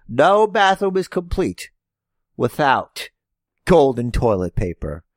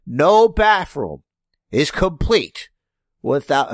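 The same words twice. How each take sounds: First: Hammed-up wealthy wrestling villain; rich heel voice. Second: Slow, grand showman pitch; hammed-up rich villain promo; rich heel voice. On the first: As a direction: boast like a smug rich heel. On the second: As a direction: sell it like a smug rich heel. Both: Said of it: "notice I'm not doing a racist accent".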